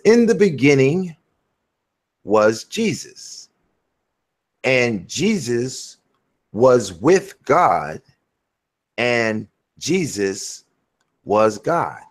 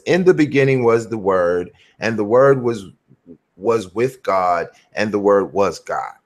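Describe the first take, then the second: First: Each phrase slow, with long pauses; slow, deliberate reading. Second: Reading a verse briskly; quick read-through. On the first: Preacher swapping Jesus into the verse for a listener, slow deliberate reading. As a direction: spell the verse out slowly, piece by piece. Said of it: "I gotta read this slow". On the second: Preacher reading John one to a listener, quick read-through. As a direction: read it straight through without dwelling. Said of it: "just read it really fast". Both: Shown as a demonstration.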